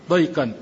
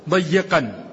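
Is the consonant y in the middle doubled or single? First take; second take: single; doubled. First: The y is single, with no vowel after it. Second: The y is doubled and followed by an i. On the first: "بفتح الضاد وتسكين الياء" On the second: "بتشديد الياء وكسرها"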